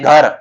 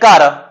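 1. ਪਹਿਲਾ ਵਿਅੰਜਨ ਘੋਸ਼ਿਤ ਹੈ ਅਤੇ ਨਾਲ ਹਲਕਾ ਸਾਹ ਹੈ। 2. ਸਾਹ ਖ਼ਤਮ ਹੋ ਜਾਂਦਾ ਹੈ ਅਤੇ ਇੱਕ ਸੁਰ ਆ ਜਾਂਦੀ ਹੈ। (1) "ਉਹ ਕਹਿੰਦੇ ਨੇ ... ਮੂਲ ਰੂਪ ਦੇ ਵਿੱਚ ਉਚਾਰੀਆਂ ਜਾਂਦੀਆਂ ਨੇ" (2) "ਪਰ ਅਸੀਂ ਕਹਿੰਦੇ ਆ ... ਸੁਰ ਦੇ ਵਿੱਚ ਬਦਲ ਗਈਆਂ"

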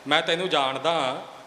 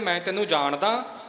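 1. ਇਹ ਚੁਣੌਤੀ ਭਰੇ, ਅੜੀ ਵਾਲੇ ਲਹਿਜੇ ਵਿੱਚ ਕਿਹਾ ਜਾਂਦਾ ਹੈ। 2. ਇਹ ਸ਼ੱਕ ਭਰੇ, ਸਵਾਲੀਆ ਲਹਿਜੇ ਵਿੱਚ ਕਿਹਾ ਜਾਂਦਾ ਹੈ। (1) "ਇਹ ਇੱਕ ਵੰਗਾਰ ਬਣ ਗਈ" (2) "ਇਹ ਇੱਕ ਸ਼ੰਕੇ ਵਾਲੀ ਗੱਲ ਆ ਗਈ"

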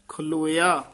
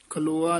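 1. ਅੰਤ ਵਿੱਚ 'a' ਤੋਂ ਪਹਿਲਾਂ 'ee' ਦੀ ਧੁਨੀ ਹੈ। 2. ਅੰਤ ਸਾਦਾ 'oa' ਹੈ, 'ee' ਨਹੀਂ। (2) "ਖਲੋਆ ਨਹੀਂ ਹੈ"

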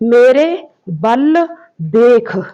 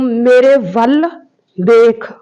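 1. ਦੂਜਾ ਸ਼ਬਦ ਬੱਬੇ ਦੀ ਧੁਨੀ ਨਾਲ ਸ਼ੁਰੂ ਹੁੰਦਾ ਹੈ। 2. ਦੂਜਾ ਸ਼ਬਦ ਵਾਵੇ ਦੀ ਧੁਨੀ ਨਾਲ ਸ਼ੁਰੂ ਹੁੰਦਾ ਹੈ। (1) "ਇਹ ਕੀ ਕਹਿਣਗੇ ... ਵਾਵੇ ਦੀ ਥਾਂ ਬੱਬੇ ਦਾ ਪ੍ਰਯੋਗ" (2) "ਜਿਵੇਂ ਮੈਂ ਕਹੂੰ"

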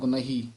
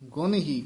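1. ਇਹ ਇੱਕ ਸ਼ਬਦ ਵਾਂਗ ਜੁੜ ਕੇ ਕਿਹਾ ਜਾਂਦਾ ਹੈ। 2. ਇਹ ਦੋ ਵੱਖਰੇ ਸ਼ਬਦਾਂ ਵਿੱਚ ਵੰਡ ਕੇ ਕਿਹਾ ਜਾਂਦਾ ਹੈ।

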